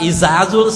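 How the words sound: The consonants are said as z sounds. A Batak speaker said it. "Orang Batak izazul, semuanya zai"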